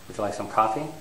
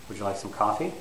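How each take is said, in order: First: The voice does not rise on some coffee. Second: The voice rises on some coffee. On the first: It sounds like an impolite offer. The speaker calls it wrong. "It doesn't sound normal in uh, North American English" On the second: It sounds like a polite offer. The speaker calls it right. "it needs to rise on some coffee"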